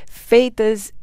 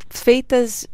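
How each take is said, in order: Both takes have the same delivery.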